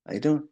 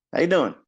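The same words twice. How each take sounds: First: Light greeting rising at the end; casual greeting. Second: Louder greeting falling on doing; firmer greeting. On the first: Traders raising hands in greeting, casual rising tune. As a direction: toss it off with an upturn on doing. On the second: Traders raising hands in greeting, firm falling tune. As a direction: land doing with a firm drop. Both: Retold or imitated. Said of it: "We're raising our hands saying".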